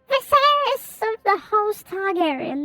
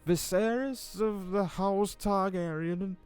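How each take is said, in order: First: It is said in a high, sweet voice. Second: It is read in an ordinary reading voice.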